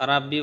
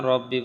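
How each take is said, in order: First: রাব্বি with open long রা, the wrong way; wrong pronunciation. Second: রব্বি with short rounded র and doubled ব; correct pronunciation. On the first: Teacher shows wrong রাব্বি to avoid. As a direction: say রাব্বি with a broad আ vowel. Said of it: "রাব্বি বলা যাবে না". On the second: Teacher gives correct রব্বি. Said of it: "রব্বি বলতে হবে". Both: Shown as a demonstration.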